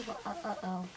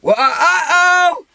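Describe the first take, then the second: First: Low, very soft sing-out cue; feed the line under your breath; hushed prompting. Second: High, loud, drawn-out whoop; shouted call. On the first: Hider prompting friend with a line, hushed. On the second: Hider shouting the prompted call, loud whoop. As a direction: holler it long and high. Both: Pretend.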